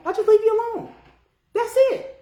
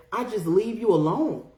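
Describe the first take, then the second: First: Much higher, light singsong voice; squeaky, hands-off protest; high-pitched insistence. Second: Said in the usual way. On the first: Real, not acted. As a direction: jump up high to say you simply walk away. Same words repeated in high voice.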